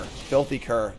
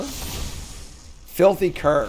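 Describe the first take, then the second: First: Said in the usual way. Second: Slow, drawn-out card name; dramatic drawn-out announcement. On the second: Acted. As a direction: stretch "Filthy Cur" out slowly and grandly.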